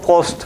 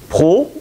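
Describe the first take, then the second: First: The name ends with audible S and T sounds. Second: The name ends without S and T sounds. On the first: This is how someone from the South says the name. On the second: This is how the local widow says the name.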